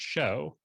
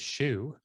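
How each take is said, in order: First: The vowel sounds like 'oh', rhyming with 'show'. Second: The vowel sounds like 'oo', rhyming with 'shoe'. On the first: The speaker calls it right. "it's actually meant to be pronounced show" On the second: The speaker calls it wrong. "they're pronouncing the word S H E W like it looks"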